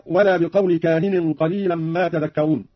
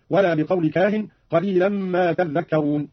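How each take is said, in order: First: Said in the usual way. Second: تذكرون said tadhdhakkarun with a doubled dhal. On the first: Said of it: "قرأ قالون بتشديد الذال". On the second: Shown as a demonstration. Teacher demonstrates the doubled dhal slowly. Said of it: "هكذا".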